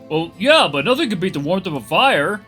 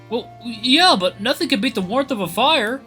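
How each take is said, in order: First: The line is said in a deeper put-on voice. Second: The line is said in a higher, ordinary voice. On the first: The speaker calls it right. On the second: The speaker calls it wrong.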